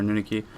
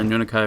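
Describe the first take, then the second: First: Anunaki, last syllable pronounced "kee"; alternative pronunciation. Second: Anunakai, last syllable pronounced "kai"; alternative pronunciation. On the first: Streamer offering viewers the other reading of his name, pronouncing Anunaki with "kee" ending. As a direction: say Anunaki with the ending rhyming with "key". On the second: Streamer explaining his online name to viewers, pronouncing Anunakai with "kai" ending. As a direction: say Anunakai with the ending rhyming with "sky". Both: Shown as a demonstration. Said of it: "I could be pronouncing it wrong".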